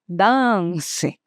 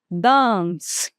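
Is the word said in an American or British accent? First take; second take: British; British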